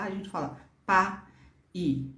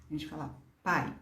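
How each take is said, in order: First: "pa" and "i" said as two separate breaths with a break; teacher showing the wrong split of pai; split syllables. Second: "pai" said as one smooth syllable; teacher showing the right one-syllable pai; joined syllable. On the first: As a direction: break "pa", then "i", apart. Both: Shown as a demonstration.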